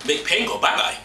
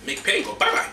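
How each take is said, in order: First: Said in the usual way. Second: A breathy private murmur; whispered. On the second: Real, not acted. Host whispers to his bottle to make the pain go.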